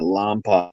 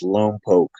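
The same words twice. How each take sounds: First: The name gets the outsider pronunciation, as in movies. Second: The name gets the local residents' pronunciation. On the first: This is how outsiders and movies say it. The speaker calls it wrong. "everybody tell you it's not Lompoc" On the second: This is how the people who live there say it. The speaker calls it right. "That's how they pronounce it"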